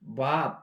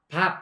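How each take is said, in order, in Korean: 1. b는 진동이 강한 유성음이에요. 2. b는 진동 없이 평음이에요. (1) "이런 거는 그냥 우리나라 밥, 밥, 이거하고는 다르다" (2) "우리나라 밥"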